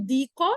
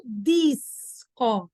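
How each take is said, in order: First: "dico" with no S sound; plain-paced "dico", S left out; wrongly missing S. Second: Very slow "disco", dis-co; "disco" split after a drawn-out S; correctly sounded S. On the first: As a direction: say "dico", dropping the S before C. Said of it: "A gente não fala". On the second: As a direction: hold the S in "disco", then a clear "co". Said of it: "É um disco". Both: Shown as a demonstration.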